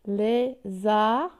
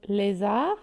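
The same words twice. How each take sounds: First: "Lézard" split into lé-zard; syllable by syllable. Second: Said in the usual way. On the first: Shown as a demonstration. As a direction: hold each of the two syllables of "Lézard". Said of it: "deux syllabes". (« Lézard » découpé en deux syllabes, lé-zard) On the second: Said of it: "Combien de syllabes".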